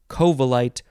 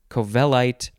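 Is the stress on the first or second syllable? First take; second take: first; second. First: The stress is on the first syllable. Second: The stress is on the second syllable. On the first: "You can emphasize the first syllable" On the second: "or you can emphasize the second syllable"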